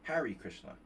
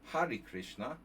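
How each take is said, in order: First: The name is said with an American accent. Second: The name is said without an American accent.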